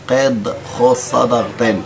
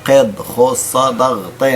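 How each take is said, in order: No difference in how they are said.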